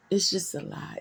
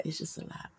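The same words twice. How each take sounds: First: Said in the usual way. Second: "It's just a lot" breathed out in a whisper; a heavy-hearted whisper, said mostly to herself. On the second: Real, not acted. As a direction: let the words fall away to a near-silent whisper. Repeats the phrase, second time whispered.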